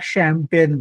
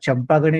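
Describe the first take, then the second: First: It starts with 'sh' and has two syllables. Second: Every letter is read out, starting with 'ch'. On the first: This is how it is spoken. "बोलताना शॅम्पेन बोलायचं" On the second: This is how it is written. "लिहिताना चंपागणे लिहायचं"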